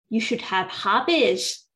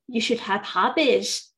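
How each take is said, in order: Both takes have the same delivery.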